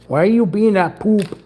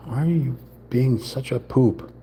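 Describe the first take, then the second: First: Squeaky mock scold. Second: Said in the usual way. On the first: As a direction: pretend to tell off a naughty toy. Scolding the stuck piece.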